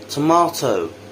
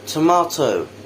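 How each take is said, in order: First: British accent, with an open 'ah' vowel. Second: British accent, with an open 'ah' vowel.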